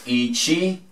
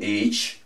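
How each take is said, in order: First: The final vowel is clearly pronounced. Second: The final vowel is dropped.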